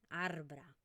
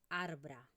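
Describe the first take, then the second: No difference in how they are said.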